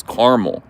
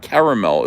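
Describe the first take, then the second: First: Caramel in two syllables, CAR-mul; Jersey caramel. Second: Caramel in three syllables, CARE-a-mel; rejected pronunciation. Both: Shown as a demonstration. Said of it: "it's not caramel".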